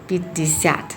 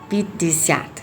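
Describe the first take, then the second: No difference in how they are said.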